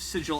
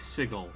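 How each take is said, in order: First: The G is soft, like a J. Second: The G is hard, as in 'get'. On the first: The speaker calls it wrong. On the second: The speaker calls it right.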